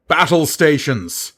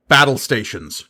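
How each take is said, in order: First: Higher and louder, ringing call; shouted order. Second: Spoken command to Sisay; firm order. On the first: Gerard calls crew through the tube, shouting. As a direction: call the whole ship to arms. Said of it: "He repeated the order into the tube". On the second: Gerard tells Sisay, firm. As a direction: command her directly. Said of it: "Gerard responded". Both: A narrator's reading.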